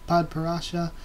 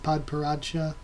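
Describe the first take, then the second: First: It is said without a D sound before 'sha'. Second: It is said with a D sound before 'sha'. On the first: The speaker calls it wrong. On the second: The speaker calls it right.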